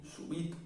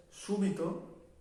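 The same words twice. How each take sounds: First: "subito" stressed on the I, su-BI-to. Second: "súbito" stressed on the U, SU-bi-to. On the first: Teacher contrasting two words, subito stressed on the I. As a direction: hit the middle syllable of "subito". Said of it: "súbito está en la I". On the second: Teacher introducing an example, súbito stressed on the U. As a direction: hit the first syllable of "súbito". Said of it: "está en la U". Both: Shown as a demonstration.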